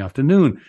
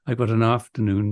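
First: The stress falls on the last syllable. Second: The stress falls on the first syllable. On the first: The word ends the phrase. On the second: The word comes before a noun it describes.

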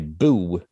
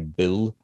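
First: The final L becomes an oo vowel. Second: The word ends with a clear L sound. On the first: "So my L turns into ooh" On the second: "I don't say Bill"

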